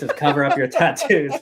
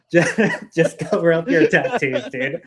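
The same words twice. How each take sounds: First: Said in the usual way. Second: Laughing through the words. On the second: Real, not acted. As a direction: say it while cracking up. Laughs repeating the rule.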